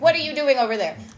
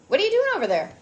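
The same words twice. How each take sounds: First: It sounds judgmental and accusing. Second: It sounds open and genuinely curious.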